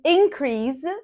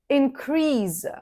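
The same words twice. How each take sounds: First: The stress is on the first syllable. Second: The stress is on the second syllable. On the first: It is used as a noun. "when we use these words as a noun, we stress the first syllable" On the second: It is used as a verb. "as verbs, we stress the second syllable"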